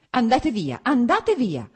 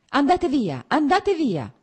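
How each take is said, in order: First: High, loud, sharp cry; cutting shout. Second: High, loud cry, repeated with rising force; pained shout. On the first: Wife ordering husband away, shouting cuttingly. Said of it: "gridò con voce ancora più tagliente". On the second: Wife ordering husband away, shouting in pain. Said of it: "gridò senza guardarlo". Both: A narrator's reading.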